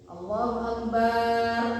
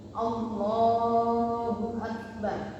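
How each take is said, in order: First: The vowel after b in akbar is drawn out. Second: The vowel after b in akbar is kept short. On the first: This is how some callers to prayer say it. The speaker calls it wrong. "ebaknya dipanjangkan" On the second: This is how it should be said in prayer. The speaker calls it right. "Ini waktu sholat ini"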